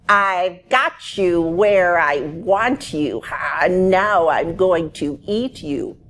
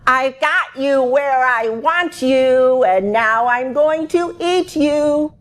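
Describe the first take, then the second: First: The voice is fairly quiet. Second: The voice is louder still.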